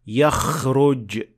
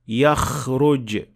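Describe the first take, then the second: Both takes have the same delivery.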